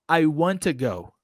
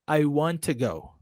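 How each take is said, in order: First: The two t sounds merge into one. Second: The two t sounds merge into one.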